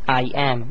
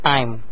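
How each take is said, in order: First: The two words are said separately. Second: The two words are joined into one. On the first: The speaker calls it wrong. "the contracted form cannot be said like this" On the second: The speaker calls it right. "You must say I'm"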